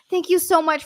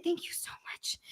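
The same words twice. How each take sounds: First: Said in the usual way. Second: Overwhelmed, breath-only whisper; whispered thanks. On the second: Real, not acted. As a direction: drop to a stunned whisper.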